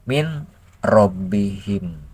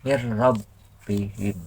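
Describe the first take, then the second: First: The n is pronounced separately before the r. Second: The n merges into a doubled r, without nasalization.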